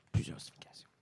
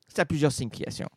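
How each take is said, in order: First: Whispered aside; sly stage whisper. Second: Said in the usual way. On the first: Shown as a demonstration. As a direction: breathe it as a secret.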